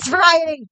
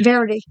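First: The word is said with all four syllables. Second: The word is squeezed into three syllables. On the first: It gives the standard pronunciation. The speaker calls it right. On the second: It imitates someone's habitual mispronunciation. The speaker calls it wrong.

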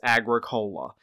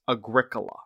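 First: The ending sounds like the drink cola. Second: The ending does not sound like cola. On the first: The speaker calls it wrong. "it looks like it's pronounced Agricola. It's not a vegan soft drink" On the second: The speaker calls it right. "No, it's pronounced Agricola"

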